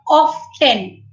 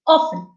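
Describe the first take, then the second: First: The t sound is clearly pronounced. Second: The t sound is completely silent. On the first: "they emphasize on t" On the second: "T completely silent"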